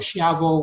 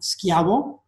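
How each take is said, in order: First: The name begins with an 'sh' sound. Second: The name begins with a hard 'sk' sound. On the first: "whatever you want to pronounce it" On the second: "it's really pronounced Schiavo"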